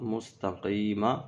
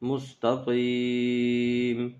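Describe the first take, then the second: First: The word ends with a short a vowel. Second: The word ends on a bare m consonant. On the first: The reading continues into the next word. "میم زبر ما" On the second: The reader stops at this word. "یہاں وقف کریں گے تو میم ساکن ہو جائے گا"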